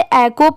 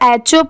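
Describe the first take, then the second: First: The h is silent, giving a plain k sound. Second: The h is sounded, giving a ch sound. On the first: The speaker calls it right. "इसमें पढ़ते time एच silent होता है" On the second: The speaker calls it wrong. "क्योंकि यहाँ पर तो एच दिया हुआ है"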